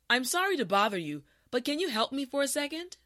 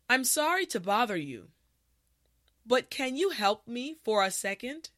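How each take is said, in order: First: The sentence is spoken at a natural speed. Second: The sentence is spoken slowly and carefully. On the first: "the last time at a regular pace" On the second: "this time repeat after me"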